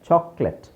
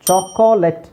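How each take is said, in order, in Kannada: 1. ಇದಕ್ಕೆ ಎರಡು ಉಚ್ಚಾರಾಂಶಗಳಿವೆ, ಮಧ್ಯದ 'o' ಮೌನ. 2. ಇದಕ್ಕೆ ಮೂರು ಉಚ್ಚಾರಾಂಶಗಳಿವೆ, ಮಧ್ಯದ 'o' ಉಚ್ಚರಿಸಲಾಗುತ್ತದೆ. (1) "ಓ ಈಸ್ ಸೈಲೆಂಟ್" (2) "ನಾವು ಚಾಕೋಲೆಟ್ ಅಂತ ಹೇಳಲ್ಲ"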